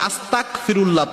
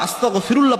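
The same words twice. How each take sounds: First: The middle consonant is a voiceless k sound. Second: The middle consonant is a voiced gh sound. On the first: The speaker calls it wrong. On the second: The speaker calls it right.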